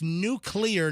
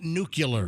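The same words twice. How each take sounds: First: The middle sounds like 'clee'. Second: The middle sounds like 'cue-ler'. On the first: The speaker calls it right. "It's it's nuclear" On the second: The speaker calls it wrong. "not nuclear"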